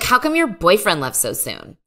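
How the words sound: The question is asked in a harsh, mean tone. The speaker calls it wrong. "It was too mean"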